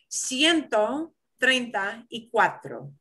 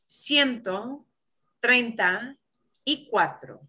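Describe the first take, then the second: The two takes are said the same way.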